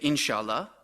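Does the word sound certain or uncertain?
certain. It is said in a sure, affirming way. The answer is yes. "that means yes"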